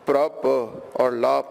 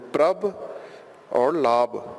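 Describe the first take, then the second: First: The final consonant is a plain p sound. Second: The final consonant sounds between p and b. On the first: The speaker calls it wrong. "instead of" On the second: The speaker calls it right. "Pabba will give the sound of pabba and babba"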